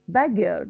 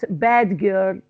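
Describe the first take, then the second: First: The d of the first word is dropped. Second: The d of the first word is pronounced. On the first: The speaker calls it right. "So I pronounce it bad girl" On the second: The speaker calls it wrong. "not bad girl"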